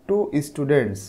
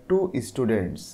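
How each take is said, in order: The two takes are said the same way.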